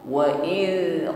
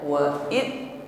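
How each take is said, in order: First: The final consonant sound flows on continuously. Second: The final consonant is cut off abruptly. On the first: The speaker calls it right. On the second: The speaker calls it wrong. "jangan ditahan atau putus bunyi hurufnya, bukan"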